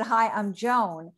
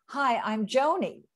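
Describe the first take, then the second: First: Slow "Hi, I'm Joan" with the name said as one syllable, JOHN; the corrected take: "Joan" said JOHN, no second syllable. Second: Slow "Hi, I'm Joni" with the name said as JO-nee; the first, wrong take of the name: "Joni" said JO-nee; mistaken name. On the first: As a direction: slowly say "Joan" as a single long syllable. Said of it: "She said Joan". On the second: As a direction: slowly say "Joni", long o then "nee". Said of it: "I thought you said she, she said Joan". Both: Retold or imitated.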